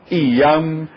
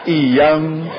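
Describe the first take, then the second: No difference in how they are said.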